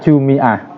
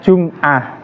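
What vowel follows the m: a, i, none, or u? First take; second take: i; none. First: The m is followed by an i vowel. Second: The m is followed by no vowel.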